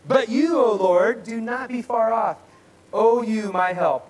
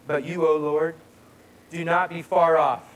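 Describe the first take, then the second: First: Loud, high, impassioned declaiming; scripture reading redone. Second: Firm, emphatic reading of a plea; scripture reading. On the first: Preacher repeating the psalm's plea after interruption, loud declaiming. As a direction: cry out the plea at full voice. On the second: Preacher reading a psalm's plea to God, emphatic. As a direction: read it out strongly, in a measured way. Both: Acted. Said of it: "I'll do it again for you".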